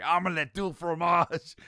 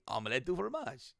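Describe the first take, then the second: First: Loud, high, drawn-out angry yell; hammed-up angry outburst; mock angry. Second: Mildly cheerful acted line; happy. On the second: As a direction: say it with a touch of happiness. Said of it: "He's happy".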